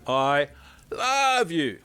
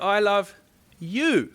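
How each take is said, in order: First: The stress is on the word love. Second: The stress is on the word you.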